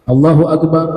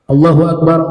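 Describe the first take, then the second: Both takes have the same delivery.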